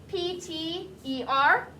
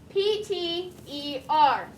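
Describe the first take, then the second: No difference in how they are said.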